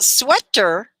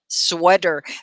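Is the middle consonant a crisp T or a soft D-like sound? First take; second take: crisp T; soft D. First: The middle consonant is a crisp, clear T. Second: The middle consonant is a soft D-like sound. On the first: The speaker calls it wrong. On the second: The speaker calls it right.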